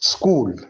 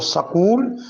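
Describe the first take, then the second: First: The s runs straight into the k. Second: A vowel is inserted between s and k. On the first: The speaker calls it right. "सीन को साकिन पढ़ा जाता है" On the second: The speaker calls it wrong. "नहीं पढ़ेंगे"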